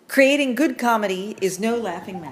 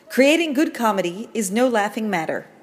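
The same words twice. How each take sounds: First: It is spoken with a New York accent. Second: It is spoken without a New York accent. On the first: The speaker calls it wrong. "your New York accent betrayed you" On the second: The speaker calls it right. "You're the professor"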